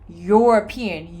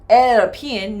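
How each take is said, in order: First: The word begins with a consonant y sound. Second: The word begins with another plain vowel sound. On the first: The speaker calls it right. "No, I say European" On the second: The speaker calls it wrong. "or European"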